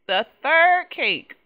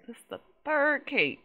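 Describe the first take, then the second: First: Third cake drawn out slowly and louder, stress on "third"; slow emphatic. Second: Said in the usual way. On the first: Real, not acted. Fed-up player stressing the third baked cake, slow and loud. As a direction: drag out "The third cake" with weight on "third". Slowed exasperated repeat.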